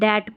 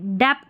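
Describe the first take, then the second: First: No b sound is heard before t. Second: A b or p sound is heard before t. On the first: The speaker calls it right. "बी silent रहता है" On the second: The speaker calls it wrong. "डेप्ट नहीं"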